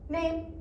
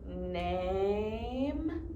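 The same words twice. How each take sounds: First: The word is said short and quick. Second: The word is drawn out slowly. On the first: The speaker calls it right. "we're saying it quickly, we're not droning" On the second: The speaker calls it wrong. "it's not"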